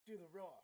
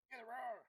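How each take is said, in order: First: Chanting loudly, egging on; chanted, shout it to egg them on. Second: Shouted higher and louder. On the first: Teasing chant at frog player. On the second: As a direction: really yell it this time. Repeated chant louder. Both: Real, not acted.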